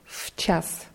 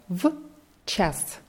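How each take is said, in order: First: The first sound is a voiceless f. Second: The first sound is a clear, voiced v. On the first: "wenn man das normal sagt, dann wird dieses в zum f" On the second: "ich habe das extra so ausgesprochen, damit man die Präposition в hört"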